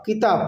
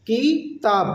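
First: Said in the usual way. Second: Drawn out as two parts, "কি - তাব"; broken into syllables. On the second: Shown as a demonstration. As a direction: say "কিতাব" syllable by syllable with a gap. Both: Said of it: "নেপালিতে বলবো".

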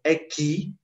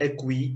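First: "aqui" said ah-KEE, no w sound; silent u. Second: "aqui" with the u voiced, ah-KWEE; mispronounced aqui. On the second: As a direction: show the mistake, "aqui" said as ak-wee. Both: Shown as a demonstration. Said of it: "we don't read u".

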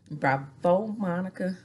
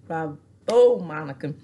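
First: Said in the usual way. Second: Booming applause; loud bravo. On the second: Real, not acted. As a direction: shout the bravo. Applauding Monica.

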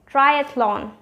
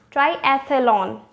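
First: "triathlon" as try-ATH-lon; correct three syllables. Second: "triathlon" as try-ATH-uh-lon, slowly; wrong four syllables. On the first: Teacher summing up for viewers, correct three syllables. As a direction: run th into l in "triathlon". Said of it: "three syllable is correct". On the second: Teacher warning against the error, wrong four syllables. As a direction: slowly add a vowel after th in "triathlon". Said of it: "four syllable is actually incorrect". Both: Shown as a demonstration.

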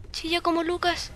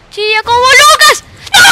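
First: Said in the usual way. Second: Shouted taunt. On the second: Real, not acted. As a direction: belt out "Chilla como Lucas".

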